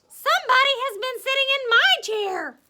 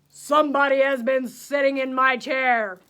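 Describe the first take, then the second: First: It is said in a middle-sized, medium voice. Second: It is said in a great big, deep voice.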